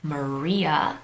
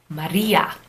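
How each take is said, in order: First: The r is a smooth English r sound. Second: The r is a quick tongue flap. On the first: "English is the only language that would pronounce it as Maria" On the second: "they would say Maria, Maria, that flap"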